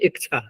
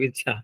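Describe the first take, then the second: First: A k sound comes before ch. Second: There is no k sound before ch. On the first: The speaker calls it wrong. "वो लोग क्या बोलते हैं ... क और छ, ककार पहले" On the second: The speaker calls it right. "जैसे इच्छा शब्द बोलते हैं ना हम लोग"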